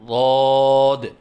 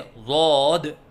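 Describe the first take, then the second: First: The long vowel is held steady without wobbling. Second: The long vowel wavers up and down in pitch. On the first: The speaker calls it right. "पहले बच्चे के सामने सही अदायगी करे" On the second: The speaker calls it wrong. "बच्चा जो गलती कर रहा था उसी को दोहराएं"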